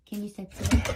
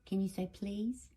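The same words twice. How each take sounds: First: Louder, insistent repeat of the request; louder prompting. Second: Said in the usual way. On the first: Real, not acted. Owner insisting the dog say please, louder. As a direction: push the question louder the second time.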